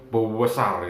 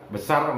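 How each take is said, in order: First: The word is stretched out with strong emphasis. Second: The word is said plainly, without extra emphasis.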